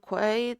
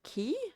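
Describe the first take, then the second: First: The word is pronounced like 'kway'. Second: The word is pronounced exactly like 'key'. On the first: The speaker calls it wrong. "evidently I'm saying it wrong" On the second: The speaker calls it right. "the British English say it exactly like key"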